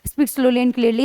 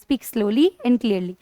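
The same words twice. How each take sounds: First: It is said fast and rushed. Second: It is said slowly and clearly.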